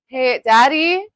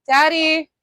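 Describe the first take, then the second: First: High, loud call across the house. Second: High, loud repeat call; calling out again. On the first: Calling Daddy from the nail desk, loud shout. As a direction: shout for Daddy from the next room. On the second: Calling Daddy a second time, loud shout. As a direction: yell his name once more to get his attention. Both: Real, not acted. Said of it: "Sorry about the screaming in your ears".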